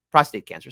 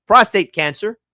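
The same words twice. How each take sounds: First: "prostate" slurred, the p swallowed; stumbled word. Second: "Prostate" said clearly with a crisp opening p; clean retake. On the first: Vlogger stumbling over "prostate" on air, slurred. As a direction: trip over "prostate", dropping the opening p. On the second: Vlogger fixing his stutter on "Prostate", clear crisp retake. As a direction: reset and hit the p of "Prostate" cleanly. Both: Real, not acted. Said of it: "stuttered three times".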